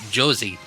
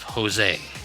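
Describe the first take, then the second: First: It starts with a J sound. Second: It starts with an H sound.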